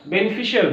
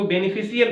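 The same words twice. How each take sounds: First: बेनिफिशियल as beni-FI-shul; correct pronunciation. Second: बेनिफिशियल as beni-fi-si-yal; common mispronunciation. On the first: Teacher answers with the right reading, properly pronounced. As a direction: say बेनिफिशियल with sh and a short ending. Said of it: "but ये क्या होगा?". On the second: Teacher quotes how some people misread it, mispronounced. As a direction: say बेनिफिशियल with s, not sh, before "yal". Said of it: "गलत पढ़ते हैं". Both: Shown as a demonstration.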